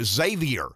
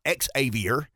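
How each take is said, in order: First: The name begins with a z sound. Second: The name begins with an ex sound. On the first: The speaker calls it right. "it's an X sounds like a Z" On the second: The speaker calls it wrong. "not Xavier"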